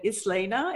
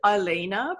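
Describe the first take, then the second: First: The s in the name is pronounced. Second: The s in the name is silent. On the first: "than Islena" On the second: "I keep wanting to pronounce it Ilena"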